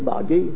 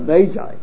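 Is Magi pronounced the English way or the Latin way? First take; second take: Latin; English. First: The word is given its Latin pronunciation. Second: The word is given its English pronunciation. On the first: "in Latin, it's really magi" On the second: "we in English would pronounce it Magi"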